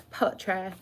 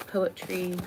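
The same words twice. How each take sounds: First: "poetry" with its last vowel opened to "ah"; mock-fancy "poetry" ending on an open vowel; playful mispronunciation. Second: Said in the usual way. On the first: Playful repeat of the word poetry.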